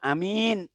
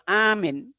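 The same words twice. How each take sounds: First: The first vowel is short, the second long. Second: The first vowel is long, the second short. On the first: It means a trustworthy person. "A-nya pendek, min-nya panjang" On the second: It means a person who is safe. "A-nya panjang, pendek"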